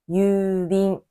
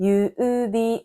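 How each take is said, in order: First: The u sounds merge into one long vowel. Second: The u sounds are said as two separate vowels.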